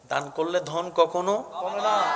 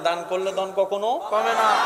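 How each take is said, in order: First: It is said at normal volume. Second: It is said noticeably louder.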